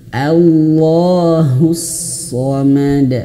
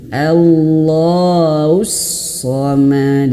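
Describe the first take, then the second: First: The h sound is crisp and distinct. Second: The h sound is slurred and dragged. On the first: The speaker calls it right. "Haknya diperjelas" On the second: The speaker calls it wrong. "Jangan ... Jadi jangan sampai baca seperti itu"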